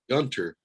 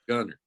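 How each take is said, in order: First: The t sound in the middle is clearly pronounced. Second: The t sound in the middle is dropped. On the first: The speaker is not from the area. "if you pronounced it Gunter, I knew you were out of your your area" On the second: The speaker is a local. "we pronounced it Gunner"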